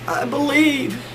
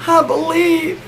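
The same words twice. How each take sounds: First: High-pitched mock-tearful voice; shaking, tearful. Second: Mock sobbing. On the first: Sick wife holding holy water, high tearful imitation. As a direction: imitate a sobbing woman, very high and weak. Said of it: "she's just a shaking". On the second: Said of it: "she's sobbing, she's like".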